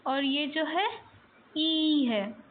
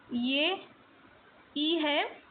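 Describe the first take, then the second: First: ई said louder and held; teacher saying the long ई louder. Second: इ said softly and short; teacher saying the short इ softly. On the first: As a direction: say ई loud and long. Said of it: "इसको loudly बोल रही हूँ". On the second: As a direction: keep इ light and quiet. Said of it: "देखो मैं अलग pronounce कर रही हूँ". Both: Shown as a demonstration.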